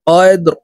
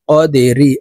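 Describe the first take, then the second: First: The word ends on a bare r sound. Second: The word ends with an i vowel after r. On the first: The reader stops at this word. "র কে ওয়াকফের ক্ষেত্রে সাকিন করে ফেলবো" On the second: The reading continues without stopping. "র জের রি"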